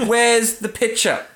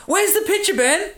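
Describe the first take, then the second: First: Slow mock demand. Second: Mock demand. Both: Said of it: "we're looking at a picture right now".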